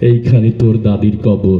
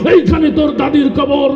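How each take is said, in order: First: It is recited softly and beautifully. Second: It is recited loudly like a fiery political speech. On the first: The speaker calls it right. "অনেক সুন্দর করে আবৃত্তি করছে" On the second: The speaker calls it wrong. "রাজনীতির মঞ্চে গরম বক্তব্য দিয়ে অভ্যাস। তো নেতার আবৃত্তির ঢং ছিল এরকম"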